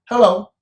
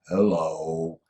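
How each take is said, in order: First: It is said very quickly. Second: It is said very slowly.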